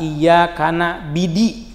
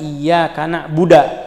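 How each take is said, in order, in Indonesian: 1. Kata terakhirnya punya vokal i, na'bidi. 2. Kata terakhirnya berakhir dengan a, na'buda. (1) "kasribaiha ... misalnya" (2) "dia baca ... misalnya"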